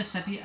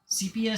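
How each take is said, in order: First: Sepia said as SEP-ee-uh; short-e sepia. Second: Sepia said as SEE-pee-uh; long-e sepia. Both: Shown as a demonstration. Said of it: "however you want to pronounce it".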